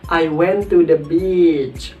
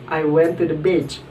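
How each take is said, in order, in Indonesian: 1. Vokal dalam 'beach' itu panjang. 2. Vokal dalam 'beach' itu pendek. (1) "maka bacanya beach, panjang" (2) "kalau misalnya kita baca dengan pendek"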